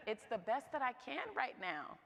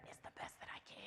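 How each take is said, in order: First: Said in the usual way. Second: Whispered confession. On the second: Real, not acted. Admitting cereal for dinner, whispered. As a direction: breathe it like a secret.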